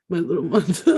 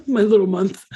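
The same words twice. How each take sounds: First: Said in the usual way. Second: Laughing through the words, louder; laughing as she repeats herself. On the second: Real, not acted. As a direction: giggle it out again.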